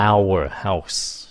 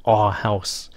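First: OUR opened out to full "ow-er"; slow-speech OUR. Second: OUR reduced to "ar" before house; fast-speech OUR. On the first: Teacher shows careful slow talk, full "ow-er" OUR. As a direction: say "ow-er house" for OUR house. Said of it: "Nói chậm". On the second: Teacher shows how Americans talk fast, OUR as "ar". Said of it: "Người Mỹ nói nhanh, họ sẽ chọn là". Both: Shown as a demonstration.

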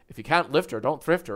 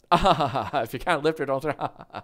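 First: Said in the usual way. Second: Imitating a laugh-along, slower; nervous laughter. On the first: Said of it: "some other Irish person walks in". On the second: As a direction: repeat it slowly through a put-on nervous chuckle. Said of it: "what does the Irish guy do?".

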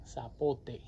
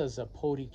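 First: "zapote" said sah-POH-teh, Spanish style; "zapote" with Spanish s and a clear final e; Spanish pronunciation. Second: Said in the usual way. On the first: Shown as a demonstration.

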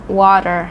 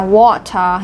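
First: "water" with the T turned into a D; American flap T. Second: Said in the usual way. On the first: Shown as a demonstration. Teacher shows learners American English, "water" with T as D. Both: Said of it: "âm T đổi thành âm đờ".

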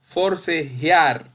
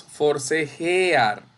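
First: "forcejear" slow, e-a merged into one glide, for-ce-JIAR; teacher's drawn-out model of "forcejear" as for-ce-JIAR; correct pronunciation. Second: "forcejear" with e and a split, for-ce-je-AR; slow counterexample, "forcejear" in four syllables; wrong pronunciation. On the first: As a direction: end "forcejear" on a single stressed JIAR. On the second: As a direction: separate the vowels in "forcejear": je-AR. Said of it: "No decimos forcejear". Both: Shown as a demonstration.

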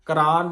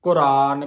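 First: ਕੁਰਾਨ said as kuraan with a long open a, the wrong way; wrong pronunciation. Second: ਕੁਰਾਨ said loud and clear with aunkar on kakka, koraan; correct pronunciation. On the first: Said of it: "ਕੁਰਾਨ ਨਹੀਂ ਕਹਿਣਾ ਇਹਨੂੰ". (ਗਲਤ ਉਚਾਰਨ ਕੁਰਾਨ) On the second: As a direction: announce the right ਕੁਰਾਨ firmly. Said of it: "ਉਚਾਰਨ ਆ ਜੋ". (ਸਹੀ ਉਚਾਰਨ ਕੁਰਾਨ) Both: Shown as a demonstration.

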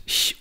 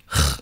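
First: "Ch" as a soft palatal hiss, as in ich; ich-Laut. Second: "Ch" as a back-of-mouth fricative, as in ach; ach-Laut. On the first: Lecturer contrasts two German sounds, ich-Laut. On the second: Lecturer contrasts two German sounds, ach-Laut. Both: Shown as a demonstration. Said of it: "den Ich- und den Achlaut".

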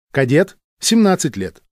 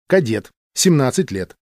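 Both takes have the same delivery.

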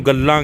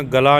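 First: ਗੱਲਾਂ with a held double l; gal-laan, lean on the l of ਗੱਲਾਂ; firm doubled l in ਗੱਲਾਂ; doubled-consonant pronunciation. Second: ਗਲਾ with a single light l; ga-laa, no doubling in ਗਲਾ; mispronunciation demo. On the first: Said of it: "ਇਹਨੂੰ ਗੱਲਾਂ ਕਹਿਣਾ". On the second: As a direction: say ਗਲਾ as the mistaken reading, single l. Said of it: "ਗਲਾ ਨਹੀਂ ਕਰਨਾ". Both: Shown as a demonstration.

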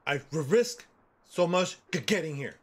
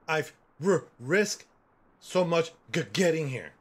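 First: Slow, halting stutter; slower stuttering take. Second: Stuttering voice. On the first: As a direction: drag out each stutter. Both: Retold or imitated. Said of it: "know that I stutter".

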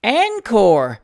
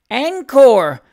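First: Louder, hearty Encore! with a falling end; shout. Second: High, loud cry of Encore!; eager cry. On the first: Plaid-waistcoat gentleman shouts for an encore, bottle on the table. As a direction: bellow Encore! while hammering the table. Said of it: "shouted the gentleman in the plaid waistcoat". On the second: Miss Jemima Ivins's friend cries out for more, high and loud. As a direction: call out Encore! with delight. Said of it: "cried Miss Jemima Ivins's friend". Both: A narrator's reading.

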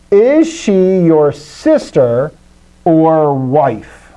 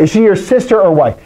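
First: Very slow, deliberate question; measured, word-by-word quote; slow example reading. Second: Said in the usual way. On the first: Shown as a demonstration. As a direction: stretch each word as if dictating. Reads out example sentence slowly.

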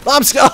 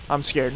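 First: Much higher, much louder fake panic; mock scared shout. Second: Said in the usual way. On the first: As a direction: yell it in hammy fright.

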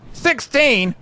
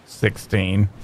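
First: SIXTEEN called out high-pitched; excited cry. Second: Said in the usual way. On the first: Real, not acted. Repeats number as an excited cry.

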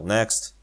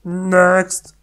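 First: Said in the usual way. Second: Higher, louder character next. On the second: Pretend. The girl moving the tour along, brighter.

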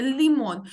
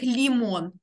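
First: Лімон with a slightly harder L; firm up the L in лімон, less palatalised; лімон, its L a touch harder; firmer L. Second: Лімон with a soft, palatalised L. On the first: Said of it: "От трошечки твердіше". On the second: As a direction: say лімон with a fully softened L. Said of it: "не читаємо це прям як лімон". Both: Shown as a demonstration.

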